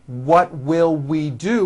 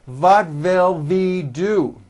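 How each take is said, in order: First: The first word begins with a rounded W. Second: The first word begins with a German-style V.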